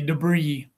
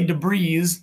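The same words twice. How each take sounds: First: The final s sound is silent. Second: The final s sound is pronounced. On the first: The speaker calls it right. "We say debris" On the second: The speaker calls it wrong. "I know it ends in I S, but we don't say debris"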